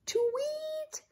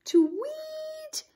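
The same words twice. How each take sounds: First: High soft chirping tweet; bird tweet. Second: Bird tweet. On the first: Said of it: "sang Emerson". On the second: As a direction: chirp it back like a bird. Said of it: "echoed all the girls". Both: Acted.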